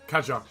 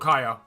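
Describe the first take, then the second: First: The middle consonant is a 'dj' sound. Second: The middle consonant is a 'y' sound. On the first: The speaker calls it right. "Kadja, not Kaya" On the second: The speaker calls it wrong. "not Kaya"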